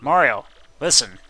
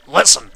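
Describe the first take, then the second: First: Said in the usual way. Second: Much louder, urgent command; insistent. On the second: Acted. Pressing Mario to listen, louder urgent call. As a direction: bark it to get attention.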